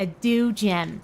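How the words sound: It is said in an American accent.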